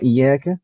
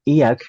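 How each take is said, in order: First: The y sound is doubled and held longer. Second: The y sound is single and short. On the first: It means 'You alone'. The speaker calls it right. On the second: It means sunlight. The speaker calls it wrong.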